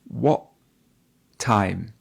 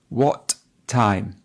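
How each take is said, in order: First: The t in 'what' becomes a glottal stop. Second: The t in 'what' is clearly released. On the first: "I actually say what time" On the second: "you can hear the t"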